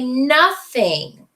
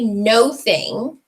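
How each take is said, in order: First: It sounds like one joined word, nothing. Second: It sounds like two separate words, no and thing. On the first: The speaker calls it right. "We say nothing" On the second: The speaker calls it wrong. "we don't say no thing"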